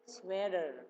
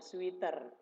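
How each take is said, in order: First: It is said with English sounds. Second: It is read as spelled, with Indonesian sounds. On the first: This is the actual English pronunciation. The speaker calls it right. "Padahal bacanya sebenarnya sweater ya" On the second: This is how many locals say it. The speaker calls it wrong. "Lihat tulisannya langsung dibaca sweater"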